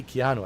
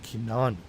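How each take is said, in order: First: Said in the usual way. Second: "Keanu" in a lower, laid-back Keanu Reeves voice; "Keanu" said slow and low like the actor. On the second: Shown as a demonstration. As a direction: drop the pitch and say "Keanu" like Keanu himself. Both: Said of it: "I didn't say Keanu, I said Keanu".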